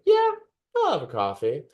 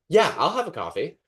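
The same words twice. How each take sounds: First: It sounds indifferent, just going along with it. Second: It sounds eager, really wanting the coffee.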